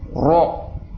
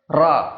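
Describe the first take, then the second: First: The heavy r is said with rounded lips. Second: The heavy r is said with unrounded lips. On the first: The speaker calls it wrong. "Jadi tidak perlu harus monyong... bukan seperti itu" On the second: The speaker calls it right. "yang benar adalah"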